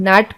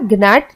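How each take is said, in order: First: The word starts with an n sound. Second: The word starts with a g sound. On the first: The speaker calls it right. "इसे हम नैट पढ़ते हैं" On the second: The speaker calls it wrong. "इसे हम जीनैट या ग्नैट नहीं पढ़ते हैं"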